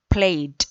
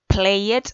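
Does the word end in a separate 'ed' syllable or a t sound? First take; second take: t sound; ed syllable. First: The ending is said as a short t sound. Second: The ending is said as a separate 'ed' syllable. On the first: The speaker calls it right. "Se pronuncia con una T al final, eliminando la ed" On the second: The speaker calls it wrong. "nunca deben leer eh, la palabra played"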